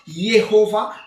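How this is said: The name is pronounced with Hebrew sounds. "comme en hébreu"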